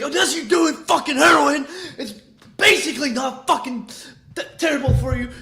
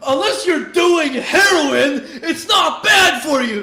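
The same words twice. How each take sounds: First: Mock-angry yell, pitched up; hammed-up irritated rant about drugs; imitating a pissed rapper. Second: Loud, slow mock-angry yell, laughing through it; imitating a pissed rapper. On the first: Retelling the rapper's rant to his viewers, mock angry yell. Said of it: "He's fucking pissed over there". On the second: The rapper answering a fan's energy drink question, mock angry yell. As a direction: bark it out like an irritated rapper answering fans. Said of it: "pissed about it".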